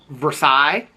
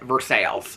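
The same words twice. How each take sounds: First: It is said the familiar, standard way. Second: It is said the local, regional way. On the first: This is how the name is spelled. "a town that is spelled" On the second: This is how the locals say it. "but they pronounce it"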